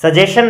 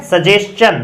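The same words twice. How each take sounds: First: "सजेशन" as sa-je-shan; wrong sh sound. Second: "सजेशन" as sa-jes-chan; correct ch sound. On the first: Teacher showing students the error, "सजेशन" with sh. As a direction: say "सजेशन" with plain sh, no ch. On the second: Teacher correcting students, "सजेशन" with s-ch in place of sh. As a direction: put s and ch in "सजेशन". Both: Shown as a demonstration. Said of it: "सजेशन नहीं है".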